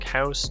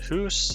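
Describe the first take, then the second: First: The vowel is the ordinary unraised 'ow' sound. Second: The vowel is raised, sounding close to 'oo'. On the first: "he would be raising words like house" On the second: "raising words like house to hoose"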